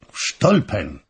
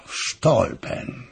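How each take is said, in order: First: A mild outburst of surprise at the name; startled exclamation, only lightly raised; exclaimed. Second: Slow, breathy murmur of "w Stolpen"; brooding half-whisper, drawn out; murmured to himself. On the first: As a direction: say it as a sharp, startled cry. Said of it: "zawołał August". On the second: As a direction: let "w Stolpen" sink into a hushed, unvoiced breath. King repeats the name to himself. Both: Acted.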